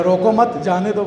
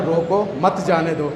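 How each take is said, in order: First: روکو مت together, then جانے دو after a short break; group مت with روکو, apart from جانے دو; pause after مت. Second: Short break after روکو, then مت جانے دو together; group مت with جانے دو, apart from روکو; pause after روکو. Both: Shown as a demonstration. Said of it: "ایک جملہ ہے نا".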